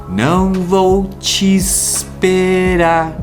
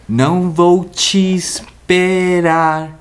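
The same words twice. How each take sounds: No difference in how they are said.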